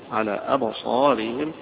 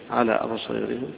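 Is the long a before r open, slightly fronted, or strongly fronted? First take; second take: slightly fronted; strongly fronted. First: The long a is slightly fronted toward e. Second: The long a is strongly fronted toward e. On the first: "هيقرأها بالتقليل الأزرق عن ورش" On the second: "هيقرأها بالإمالة أبو عمرو"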